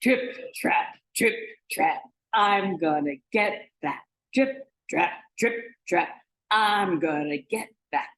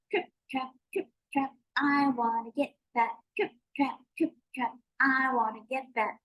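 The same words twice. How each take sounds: First: Firm, weighty trip-trap chant; big goat's forceful marching chant; biggest billy goat. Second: Tiny high-pitched trip-trap chant; small, squeaky-high goat on the bridge; littlest billy goat. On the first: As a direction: stomp heavily across the bridge. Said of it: "He made a sound like this". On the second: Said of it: "he made a sound like this". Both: Acted.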